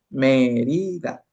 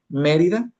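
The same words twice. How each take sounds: First: Mérida drawn out slowly as Mé-ri-da; syllable by syllable. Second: Said in the usual way. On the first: Shown as a demonstration. Teacher breaking an example word into syllables, slow and separated. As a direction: stretch each syllable of Mérida at half speed. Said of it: "vas separando la palabra por sílabas". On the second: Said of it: "antepenúltima sílaba es me".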